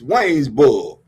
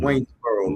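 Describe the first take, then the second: First: It is said in a local Mississippi accent. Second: It is said in a standard English accent.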